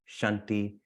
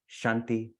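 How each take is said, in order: The two takes are said the same way.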